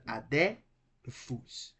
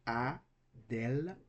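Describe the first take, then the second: First: Adelphus broken too early, a slow "a-de", pause, then "phus"; wrong syllable split. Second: Adelphus in slow pieces, "a, del, phus"; correct syllable split. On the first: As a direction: split Adelphus before the l, slowly. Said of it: "not Adelphus". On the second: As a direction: close the middle of Adelphus on the l, then pause before "phus". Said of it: "pronounced separately". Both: Shown as a demonstration.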